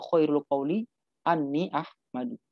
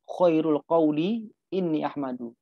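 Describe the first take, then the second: First: The word before Ahmadu starts with a. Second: The word before Ahmadu starts with i. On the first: "Boleh dibaca khairul qawli Ani Ahmadu" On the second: "Boleh dibaca ini Ahmadu"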